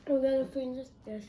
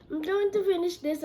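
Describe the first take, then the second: First: Said in the usual way. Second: Said louder and higher. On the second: Real, not acted. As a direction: repeat it with more push.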